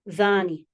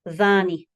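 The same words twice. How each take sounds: First: The word begins with a voiced th sound. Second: The same.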